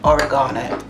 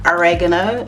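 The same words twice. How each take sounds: First: It is said in a British accent. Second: It is said in an American accent. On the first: "British we say oregano" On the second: "Americans say oregano"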